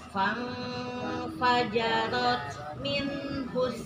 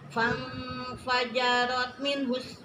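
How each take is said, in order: First: The nun sound is fully and clearly pronounced. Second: The nun sound is clipped and skipped over. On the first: The speaker calls it right. "Jadi sempurnakan nunnya. Fang fajarot minhus. Nah, gitu" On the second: The speaker calls it wrong. "Jadi tidak fang fajarot minhus. Nah, itu loncat"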